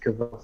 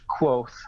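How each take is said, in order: First: The name begins with a 'kv' sound. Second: The name begins with a 'kw' sound. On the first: This is how the speaker reads it privately. "I always pronounce it Kvoth in my head" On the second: This is the official pronunciation. "technically it's pronounced Quoth"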